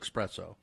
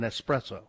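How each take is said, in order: First: The word starts with an 'ex' sound. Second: The word starts with an 'es' sound. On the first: The speaker calls it wrong. "it's not an espresso" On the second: The speaker calls it right. "It's an espresso. There's no X in it"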